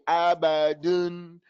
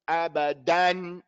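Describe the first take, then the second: First: The last vowel is a dull, lax 'un'. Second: The last vowel is an open, full 'an'. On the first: The speaker calls it wrong. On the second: The speaker calls it right.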